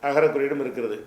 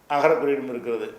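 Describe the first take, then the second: Both takes have the same delivery.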